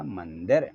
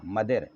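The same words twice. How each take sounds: First: मंदिर with a clear n; with nasal. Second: मदर with no n before d; without nasal. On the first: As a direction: say मंदिर as man-dir. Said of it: "तो बन जाएगा मंदिर". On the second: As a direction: say मदर with a plain first vowel. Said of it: "ऊपर बिंदी लगाइए". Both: Shown as a demonstration.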